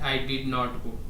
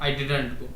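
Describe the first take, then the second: First: "Did not" is said as two full words. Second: "Did not" is contracted into one quick word. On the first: "इसको लंबा लगेगा ना time" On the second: "मतलब और जल्दी"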